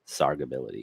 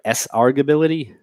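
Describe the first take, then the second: First: The word begins with one syllable, 'sarg'. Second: The word begins with the letter name 'ess'. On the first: The speaker calls it right. "How do I pronounce that word?" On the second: The speaker calls it wrong. "You have my permission to throw eggs at whoever pronounces it that way"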